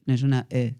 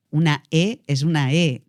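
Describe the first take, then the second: First: Mock under-articulated "E"; poor articulation. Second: Slow, fully formed "E"; clear articulation. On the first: Coach showing the wrong vowel, badly formed muffled "E". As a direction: let the "E" go slack and indistinct. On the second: Coach showing how a vowel should sound, fully articulated "E". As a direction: draw out each "E" and shape it cleanly. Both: Shown as a demonstration. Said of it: "hay que articular".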